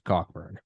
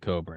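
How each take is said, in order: First: The middle k sound is clearly heard. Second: The middle k sound is silent. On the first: This follows how the name is written. "It's Cockburn. But uh C O C K B U R N" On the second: This is how the author himself says it. "Pronounces it Coburn"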